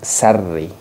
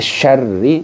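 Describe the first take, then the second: First: It begins with a plain 's' sound. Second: It begins with a 'sh' sound. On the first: The speaker calls it wrong. "bukan sarri" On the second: The speaker calls it right. "Jadi syarri bukan sarri"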